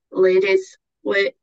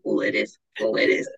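First: Put-on half-started accent. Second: Much lower retold call; accent declined. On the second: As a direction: say it low, without the accent. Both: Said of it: "I'm not doing the accent".

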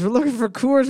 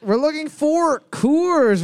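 First: Said in the usual way. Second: High, slow, drawn-out announcement; host announcement. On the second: Acted. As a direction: call the answer out like a game-show host. Quiz host announcing the answer.

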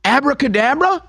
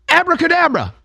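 First: "Abracadabra?" high with a puzzled rising end; confused spell. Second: "Abracadabra" high and confident with a falling close; mock spell cast. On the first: Retold or imitated. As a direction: ask "Abracadabra?" like the spell failed. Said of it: "it's like she's confused". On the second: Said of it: "she says it the third time".

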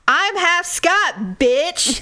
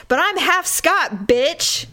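First: Slow, drawn-out yell. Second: Loud, cocky boast; too loud. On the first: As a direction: yell it out, dragging each word. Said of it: "yelling out on a terrace". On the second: Boasting to the table about being Scottish, loud. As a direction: blurt it out proudly, a bit too loud. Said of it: "And I said it really loud". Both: Retold or imitated.

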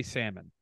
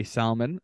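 First: Salmon said SAM-un, with no L; Canadian pronunciation. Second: Salmon said SOL-mun, with the L sounded; regional pronunciation. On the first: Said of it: "we in Canada say salmon". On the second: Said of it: "in different places they say salmon". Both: Shown as a demonstration.

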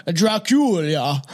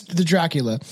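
First: Very slow, drawn-out "Dracula" as Drah-kool-ya; hammy, lingering "Drah-kool-yah"; mock-foreign pronunciation. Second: Said in the usual way. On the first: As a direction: stretch "Dracula" with a broad foreign ah. Hammed-up name in re-read.

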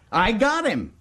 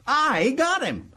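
First: High, excited announcement; high-pitched boast, quicker first take; triumphant. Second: High, slow crow with a long I; slow, high-pitched boast; savoring triumph. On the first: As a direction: crow that you caught him. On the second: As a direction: stretch it out and relish the catch. Repeats the boast, drawn out. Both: Acted.

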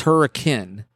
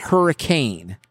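First: "hurricane" ending in a short -kin; local pronunciation. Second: "hurricane" ending in a full -cane; common pronunciation. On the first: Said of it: "It's hurricane". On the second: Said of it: "It's not hurricane". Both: Shown as a demonstration.

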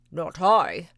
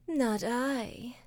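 First: Loud gruff bark of a dog; lazy dog barking. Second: Sleepy cat purring. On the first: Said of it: "barked the lazy dog". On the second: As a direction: purr it like a drowsy cat. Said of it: "purred the sleepy cat". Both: Acted.

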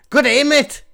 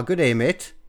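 First: Loud, high-pitched mock-Australian greeting; over-the-top Aussie call, way up high; bad Australian accent. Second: Put-on toned-down stab at an Australian accent; half-hearted mock-Aussie greeting; tentative Australian accent. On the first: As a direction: shout it in a badly faked Australian accent. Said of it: "I was going for Australian". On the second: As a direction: try out Australian at an ordinary pitch. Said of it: "Hold on, what's Australian?".

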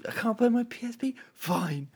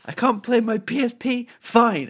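First: Quick, high, softer mimicry; casual kid imitation. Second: High-pitched mock protest; high voice, landing louder on "Fine"; imitating a defiant kid. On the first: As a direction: toss it off lightly in a high kid voice. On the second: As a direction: act out a kid's huffy comeback, high and punchy. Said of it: "while talking particularly loud or anything".

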